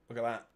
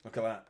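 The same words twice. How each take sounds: The two takes are said the same way.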